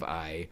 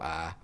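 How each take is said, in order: First: I is said with a standard gliding vowel. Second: I is said as a flat Southern ah. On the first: "instead of I" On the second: "my eyes go ah"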